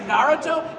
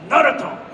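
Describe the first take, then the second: First: The name is said with an English-sounding pronunciation. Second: The name is said with a Japanese-sounding pronunciation. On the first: "I say Naruto" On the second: "he makes it sound very Japanese"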